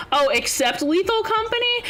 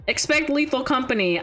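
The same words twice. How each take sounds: First: "except" said properly as ik-SEPT, with a rising question on "Company"; rising "except Lethal Company?" as a realization; corrected except. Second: "Expect" read with a clear ex-PECT, misreading the chat message; "Expect Lethal Company" as a slip for except. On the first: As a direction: fix the word to "except", puzzled. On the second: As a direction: say "Expect" instead of except, quick and flat. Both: Shown as a demonstration.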